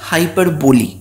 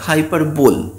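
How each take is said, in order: First: It ends in 'bolee', with four syllables. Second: It ends in 'bowl', with three syllables. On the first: The speaker calls it right. "আসল উচ্চারণ হচ্ছে হাইপারবলি" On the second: The speaker calls it wrong. "অনেকেই এই হাইপারবলি শব্দটাকে উচ্চারণ করে হাইপারবোল"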